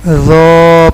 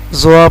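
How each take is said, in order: First: "زو" slow, heavy th, long rounded "o"; correct letter zo. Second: "زوا" with z and w glide; common misreading zwa. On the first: Teacher corrects learners, "زو" drawn out and rounded. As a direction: stretch "زو", tongue tip at upper teeth. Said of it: "لیکن اس کو". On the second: Teacher quotes what many people read, "زوا" as zwaa. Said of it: "زوا پڑھتے ہیں". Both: Shown as a demonstration.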